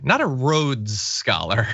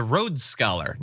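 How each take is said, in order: First: "Rhodes" drawn out slowly for contrast; slow right down and lean on "Rhodes" before "Scholar"; stress on RHODES. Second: Said in the usual way. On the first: Shown as a demonstration. Host reads out a chat pun, "Rhodes" stretched for emphasis. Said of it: "was a Rhodes Scholar".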